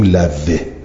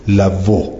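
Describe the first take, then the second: First: The w is followed by an i vowel. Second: The w is followed by a u vowel. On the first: The next word has no u vowel. "اما چون که زمه ندارد بهترینه که بگیم لوه" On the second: The next word carries a u vowel. "اگه تا زمه داشت بهتری بود که بگویم لوو"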